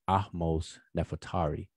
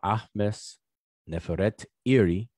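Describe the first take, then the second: First: The name is run together as one word. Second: The name is split into separate parts. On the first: This is the usual modern way of saying it. "we pronounce it conventionally as" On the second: This is the name in its original form. "which is her name"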